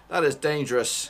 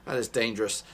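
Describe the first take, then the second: First: Louder alarmed warning; raised urgent warning; alarmed shout. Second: Said in the usual way. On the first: Real, not acted. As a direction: call out the danger loudly. Repeat much louder.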